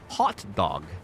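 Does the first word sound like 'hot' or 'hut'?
hot. The first word has an open 'ah' vowel, like 'hot'. This is how it is supposed to be said. "you're supposed to say hot"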